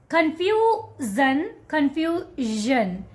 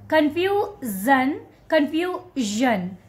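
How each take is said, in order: Both takes have the same delivery.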